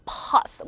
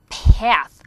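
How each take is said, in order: First: "path" with a back "ah" vowel; British A. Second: "path" with a wide cat vowel; American A. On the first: Teacher contrasting accents, British "path" with ah vowel. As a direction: drop the jaw for a long "pahth". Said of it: "뭐 이렇게 발음을 하는데". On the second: Teacher contrasting accents, American "path" with cat vowel. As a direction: open wide on the a of "path", loud. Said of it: "미국 사람들이 입을 이만큼 벌려요". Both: Shown as a demonstration.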